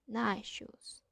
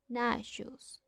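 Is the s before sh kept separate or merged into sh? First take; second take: merged; merged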